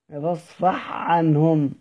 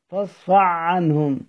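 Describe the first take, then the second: First: The first word ends in a breathy ha. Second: The first word ends in a voiced throaty ain. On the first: The speaker calls it right. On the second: The speaker calls it wrong.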